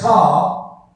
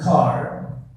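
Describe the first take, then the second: First: The final r is dropped, British style. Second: The final r is clearly pronounced, American style.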